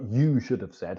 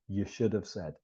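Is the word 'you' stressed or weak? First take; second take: stressed; weak. First: The word 'you' is stressed and strong. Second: The word 'you' is weak and unstressed. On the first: The speaker calls it wrong. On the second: The speaker calls it right.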